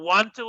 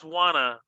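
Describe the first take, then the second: First: The word 'to' is fully pronounced. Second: The word 'to' is reduced into the verb.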